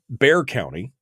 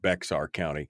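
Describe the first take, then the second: First: The name is said like the word bear. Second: The name is said with an x sound. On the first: The speaker calls it right. "I was corrected in the chat room that it's Bear" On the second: The speaker calls it wrong. "I pronounced it Bexar County"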